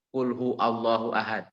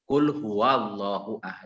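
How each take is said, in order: First: The word huwa is clipped to a short hu. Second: The word huwa is said in full. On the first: The phrase has no meaning. The speaker calls it wrong. "Itu salahnya fatal karena bukan kulhu" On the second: Say that God is one. The speaker calls it right. "tapi kul sendiri huwa"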